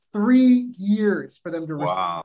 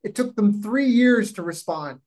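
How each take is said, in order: First: "Three" hit hard, the whole line slowed; stress on three. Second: Said in the usual way. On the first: Real, not acted. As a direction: lean on "Three" to stress the absurd wait.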